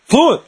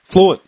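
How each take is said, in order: First: "Fluent." said higher and punched; "Fluent." stressed, pitched up in amazement; emphatic repeat. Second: Said in the usual way. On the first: Real, not acted. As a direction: hammer home "Fluent." in disbelief.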